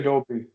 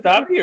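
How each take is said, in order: First: "Dobby" with a long o, DOH-bee; long-o pronunciation. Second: "Dobby" with an open ah, DAH-bee; short-o pronunciation. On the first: Asking hosts which pronunciation is right, "Dobby" as DOH-bee. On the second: Asking hosts which pronunciation is right, "Dobby" as DAH-bee. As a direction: say "Dobby" to rhyme with hobby. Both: Shown as a demonstration. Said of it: "Is it Dobby or Dobby".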